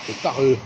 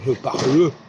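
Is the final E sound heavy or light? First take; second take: light; heavy. First: The final E is faint and barely heard. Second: The final E is pronounced heavily and clearly. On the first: The speaker calls it right. "je ne termine pas ma phrase par une consonne, mais par une voyelle" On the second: The speaker calls it wrong. "il ne faut pas être lourd, il ne faut pas dire"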